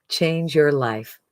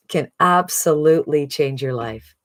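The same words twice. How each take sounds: First: Change your life, slow and weighty; slow, emphatic echo of the pitch; slow emphatic repeat. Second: Said in the usual way. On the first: Real, not acted. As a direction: let each word land slowly. Sales pitch, repeated line.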